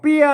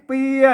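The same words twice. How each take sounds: First: The word is said with the ordinary tho tone. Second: The word is said with the saman tone. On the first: "อันนี้เปียเสียงโทปกติ" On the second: "อันนี้เปียใช่ไหมเสียงสามัญ"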